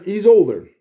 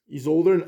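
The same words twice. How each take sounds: First: Put-on older pushed out louder with a falling finish; stress on older. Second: Said in the usual way. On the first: Shown as a demonstration. Telling the audience Peter is older, stressing older. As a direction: lean hard on older, landing it firmly.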